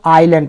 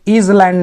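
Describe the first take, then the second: First: The s is silent, like eye-land. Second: The s is pronounced, like is land. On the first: The speaker calls it right. "इसको आइलैंड पढ़ेंगे। यस जो है ना ये silence हो जाता है" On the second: The speaker calls it wrong. "यहाँ पे इज लैंड नहीं पढ़ेंगे ना"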